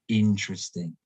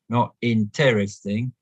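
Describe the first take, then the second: First: The stress is on the first syllable. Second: The stress is not on the first syllable. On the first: The speaker calls it right. "but interesting" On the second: The speaker calls it wrong.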